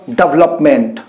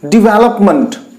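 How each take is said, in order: First: The final syllable is full, sounding like 'meant'. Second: The final syllable is reduced, sounding like 'munt'. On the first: The speaker calls it wrong. "It is not at all" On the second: The speaker calls it right. "it sounded as month, not meant"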